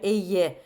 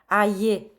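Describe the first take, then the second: First: The word sounds like 'ay-yay' with two sounds. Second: The word sounds like a single 'eye' sound. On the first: It is read the standard French way. The speaker calls it right. "au lieu de dire ayez" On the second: It is read letter by letter as spelled. The speaker calls it wrong. "j'ai dit la a, euh, aïe"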